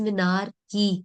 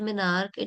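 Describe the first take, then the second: First: The word ends with a kee sound. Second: The word ends with a plain k sound. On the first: The speaker calls it right. "it's minarchy" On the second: The speaker calls it wrong. "minarch is not minarch"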